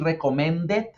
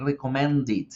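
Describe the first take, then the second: First: "recommended" said "re-co-men-det", rising; wrong-way "recommended" with E in the last syllable; wrong ending. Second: "recommended" said "ri-co-men-did", falling; correct ID ending. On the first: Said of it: "no voy a decir". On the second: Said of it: "sino voy a decir". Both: Shown as a demonstration.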